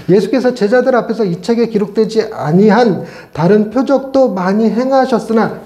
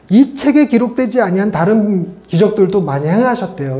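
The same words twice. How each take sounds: First: Measured, slowed-down Bible reading; scripture reading. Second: Said in the usual way. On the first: Shown as a demonstration. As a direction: read the verse out formally. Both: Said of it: "요 문구".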